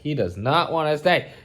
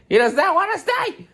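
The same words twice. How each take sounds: First: Said in the usual way. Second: Much higher, squealing; squealed exclaim. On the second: Real, not acted. Owner squealing as the cat runs off.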